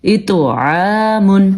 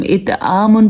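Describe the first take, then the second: First: Slow اتعامن with throaty ع and bounced ط; heavy echoed ط, long throat-made عا in اتعامن; true ain. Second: اتعامن with a plain "aa" for عا; ain turned to alif. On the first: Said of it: "یہ اصل میں ہے". (اتعامن، عین کے صحیح مخرج سے) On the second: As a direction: skip the throat sound and ط bounce in اتعامن. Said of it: "تو ہم بالکل غلط پڑھیں گے". (اتعامن میں عین کو الف بنا کر) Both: Shown as a demonstration.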